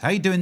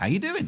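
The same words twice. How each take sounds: First: The pitch stays flat, without a question rise. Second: The pitch rises at the end like a question. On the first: It is only a greeting, not a real question. The speaker calls it right. "We even don't have the inflection of a question" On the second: It is a real question expecting an answer. The speaker calls it wrong. "It's not"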